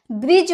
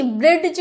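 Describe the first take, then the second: First: ब्रिज said 'brij', no separate D; silent D in bridge. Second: ब्रिज said 'bred-j' with a separate D; mispronounced ब्रिज, D before J; wrong sounded D. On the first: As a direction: correct model of ब्रिज. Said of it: "ब्रिज होता है". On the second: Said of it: "ब्रिज क्या होता है?". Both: Shown as a demonstration.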